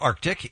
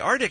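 First: The c before the t is pronounced. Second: The c before the t is dropped. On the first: The speaker calls it right. "It is, in fact, Arctic" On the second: The speaker calls it wrong. "I frequently say Arctic"

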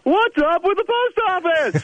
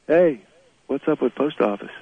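First: It is said in a loud, high voice. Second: It is said in a normal speaking voice.

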